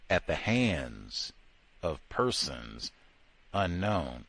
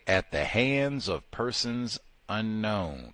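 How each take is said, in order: First: Slow, low, dragged-out mock solemnity. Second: Slow, deliberate official wording; solemn official phrase. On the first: Sarcastically repeating the official lynching verdict, slow and low. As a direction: lower and drag every word like a eulogy. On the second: Retold or imitated. Quoting the verdict slowly to his audience. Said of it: "They say".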